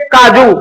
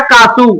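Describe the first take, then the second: First: Said in the usual way. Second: कासू spoken the South Indian way; South Indian kasu. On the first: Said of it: "काजू नहीं बोलना है". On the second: Shown as a demonstration. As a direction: say कासू, swapping the j sound for s. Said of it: "क्या बोलना है".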